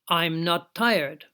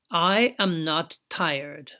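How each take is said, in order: First: The first words are joined into a contraction. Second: Every word is said fully and separately.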